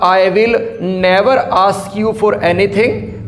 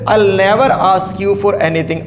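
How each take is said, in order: First: "I will" is said as two full words. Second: "I will" is shortened to one syllable, "I'll". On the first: "या तो बोलूंगा आई विल" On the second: "उसको अंग्रेजी में आइल बोला जाता है"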